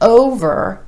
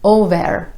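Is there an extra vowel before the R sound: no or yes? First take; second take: no; yes. First: The R sound follows with no extra vowel. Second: An extra eh vowel comes before the R. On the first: The speaker calls it right. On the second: The speaker calls it wrong.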